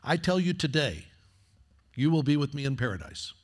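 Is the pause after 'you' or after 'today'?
after today. The pause comes after the word today.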